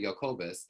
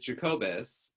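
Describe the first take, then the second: First: The name is said with a non-American pronunciation. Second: The name is said with an American pronunciation. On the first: This is the name's original pronunciation. "It's actually Jacobus" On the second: This is how Americans say the name. "which is the American uh, pronunciation"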